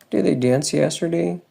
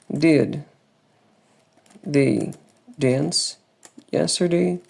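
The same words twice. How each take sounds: First: The sentence is said very quickly. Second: The sentence is said at an ordinary, careful pace.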